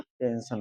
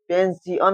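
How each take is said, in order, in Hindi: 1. बीच की ध्वनि एक ही 'sh' ध्वनि में बोली जाती है। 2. बीच की ध्वनि अलग-अलग 'si-ya' ध्वनियों में बोली जाती है। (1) "आई का उच्चारण होता है आ से होता है इसलिए पेंशन होगा" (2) "दूसरे तरीके से समझे इसे क्या पेंसियन हो जाएगा"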